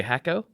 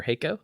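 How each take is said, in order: First: "Hako" with a short a as in hack; "Hako" starting like the word hack; first pronunciation variant. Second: "Hako" with a long a as in hay; "Hako" starting like the word hay; second pronunciation variant. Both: Shown as a demonstration. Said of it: "you say Hako or Hako".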